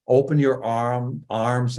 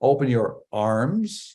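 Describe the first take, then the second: First: "arm" with a dropped r, New England style; slow New England "arm", r left silent; New England accent. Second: "arms" said slowly with a clearly sounded r; corrected r sound. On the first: Real, not acted. Coach telling speakers to open up, New England accent slipping out. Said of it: "my New England accent". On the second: Shown as a demonstration. Coach correcting own New England accent, firm r in "arms". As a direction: stretch out "arms" and pronounce the r. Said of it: "not arms".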